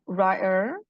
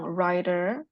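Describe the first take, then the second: First: The middle t sound is dropped. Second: The middle t sound is clearly pronounced. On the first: "te-nya hilang"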